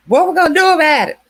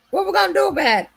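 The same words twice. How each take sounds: First: Loud, high, rushed mock yell; hammed-up frantic shout; imitating his yelling. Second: Squeaky mock panic. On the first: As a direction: bark it out fast like the panicked man. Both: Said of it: "that was screaming out".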